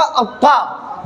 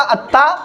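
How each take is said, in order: First: Heavy, full-mouthed emphatic consonant in अक्का; मोटी आवाज. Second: अत्ता with a light, thin T and open "a"; महीन आवाज. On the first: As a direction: say अक्का thick and rounded, towards "aw". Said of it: "मोटी आवाज में पढ़ूंगा". (अक्का को मोटा, भरी आवाज़ में) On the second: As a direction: say अत्ता fine and unrounded. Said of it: "महीन आवाज में पढ़ूंगा". (अत्ता को महीन आवाज़ में) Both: Shown as a demonstration.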